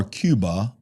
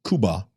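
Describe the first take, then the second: First: "Cuba" said KYOO-ba; Alabama-style Cuba. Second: "Cuba" said KOO-ba; Spanish-style Cuba. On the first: Host jokes about Alabama speech, "Cuba" as KYOO-ba. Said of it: "if you're from Alabama". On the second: Host names the country the Spanish way, "Cuba" as KOO-ba. Contrasts two ways of saying Cuba. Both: Shown as a demonstration.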